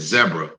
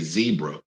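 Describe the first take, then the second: First: Zebra is said in the South African way. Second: Zebra is said in the usual American way. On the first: The speaker calls it right. "I said zebra because my good friend, comedian Trevor Noah from South Africa, told me the proper way" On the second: The speaker calls it wrong. "I didn't say zebra"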